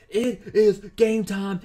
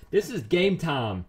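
First: Stretched slowly, leaning hard on is; hype announcer emphasis. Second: Said in the usual way. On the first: Shown as a demonstration. Gamer hyping his big hero roll, announcing slowly with stress on is. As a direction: call it out like a match announcer.

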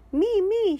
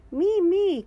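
First: High, loud me me; pony shouting to be goalkeeper; eager shout. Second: High, loud little rabbit cry; eager cry. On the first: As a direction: shout to be picked. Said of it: "shout Pedro Pony". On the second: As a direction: beg to be picked. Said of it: "cries Rebecca Rabbit". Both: A narrator's reading.

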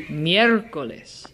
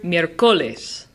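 First: Miércoles stressed on miér; miércoles said as MIÉR-co-les; third-to-last stress. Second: Miércoles mis-stressed on co; miércoles said as mier-CO-les; second-to-last stress. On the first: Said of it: "the third to last syllable". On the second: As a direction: move the weight to CO in miércoles. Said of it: "should be on the second to last". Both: Shown as a demonstration.

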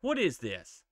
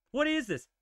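First: Said in the usual way. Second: Pitched-up What is this? with a falling end; indignant. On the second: Real, not acted. Gamer complaining at the screen in disbelief.

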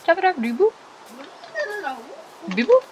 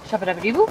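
First: Chanted, higher goofy sing-song. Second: Said in the usual way. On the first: Pretend. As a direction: toss the chant up playfully. Silly chant repeated higher.

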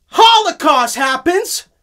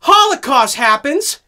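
First: High, loud, slow proclamation; dramatic announcement. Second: High, loud proclamation; dramatic announcement. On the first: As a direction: announce it like grim news. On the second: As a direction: announce it for the camera. Repeated for the camera. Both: Acted.

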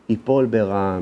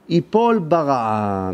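First: Said in the usual way. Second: ייפול drawn out slowly and weighted; slow emphasis. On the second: Shown as a demonstration. Quoting the Talmud's warning, slow and weighty. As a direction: lean hard on ייפול, slow the whole phrase.

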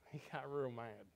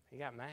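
First: "real" leaned on with a chuckle; stress on real. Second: Said in the usual way. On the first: Shown as a demonstration. Preacher repeats himself, hitting "real" with a laugh. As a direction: punch "real" in "He got real mad".

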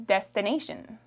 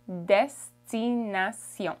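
First: Said in the usual way. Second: Destination said slowly the French way, destinasion with a nasal end; French pronunciation. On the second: Shown as a demonstration. Teacher contrasting the English word, then French destination. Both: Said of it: "Destination in French is".

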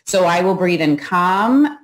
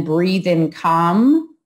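First: Said in the usual way. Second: Each word drawn out over a slow inhale; slow meditation cue; slow demo. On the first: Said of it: "as deep a breath as I can take". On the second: Shown as a demonstration. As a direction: stretch "breathe in calm" out long and easy. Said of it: "can you get a full breath in".

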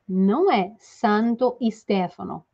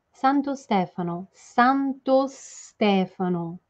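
First: Santo Stefano with an added i, santoi stefano; mock the learner's santoi Stefano; demonstrating the wrong Santo Stefano; wrong pronunciation. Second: Santo Stefano slow, clean o before Stefano; teacher modelling Santo Stefano; right pronunciation. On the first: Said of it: "Aí tá muito errado". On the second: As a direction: say Santo Stefano with no extra vowel. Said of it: "Vamos fazer primeiro a pronúncia?". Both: Shown as a demonstration.

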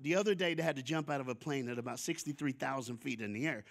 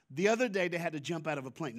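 First: Imitating a casual, offhand brag; nonchalant. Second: Said in the usual way. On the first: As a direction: toss it off like jumping from a plane is nothing. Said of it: "like, nonchalant". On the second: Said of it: "but no, no, no, no".

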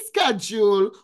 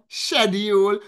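First: Schedule said with a hard sk, skedjool; schedule as sked-jool, American style. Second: Schedule as shed-yool, British style. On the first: American pronunciation for the chat, schedule with sk. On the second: British pronunciation for the chat, schedule with sh. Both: Shown as a demonstration. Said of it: "based on where you're from".

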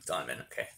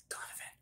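First: Said in the usual way. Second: Barely breathed out, unsure; whispered. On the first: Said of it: "That was his name". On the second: Real, not acted. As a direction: whisper the name nervously. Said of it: "I was scared to say his name".

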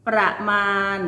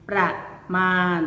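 First: Said in the usual way. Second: ประมาณ with a clear pause between ประ and มาณ; syllable-by-syllable reading. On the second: Shown as a demonstration. Teacher showing pupils how it reads, syllable by syllable. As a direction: sound out ประมาณ as two separate syllables. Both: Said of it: "อ่านว่า".

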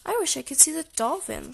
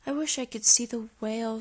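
First: Lightly voiced little sister, pitched higher; wishing Sister. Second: Lightly voiced brother, close to the narrator's pitch; understated wish, kept at usual pitch. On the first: Sister echoes her brother's wish, lightly voiced and higher. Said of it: "said Sister". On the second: Brother spots another sign, mildly wishful. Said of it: "said Brother". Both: A narrator's reading.

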